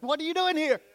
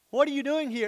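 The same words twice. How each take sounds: First: High, louder startled question. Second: Higher startled question; Mary jolted by the angel; Mary startled at the angel's visit. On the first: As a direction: jump at the child in the dark. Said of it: "and you're like". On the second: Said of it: "Mary is like that". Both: Retold or imitated.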